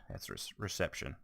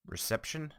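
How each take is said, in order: First: Said in the usual way. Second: "reception" said hesitantly with a high rising pitch, as if unsure; fumbled word. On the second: Real, not acted. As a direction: trail up uncertainly on "reception".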